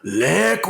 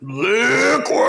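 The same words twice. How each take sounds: First: It is shouted with moderate force. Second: It is shouted with great force.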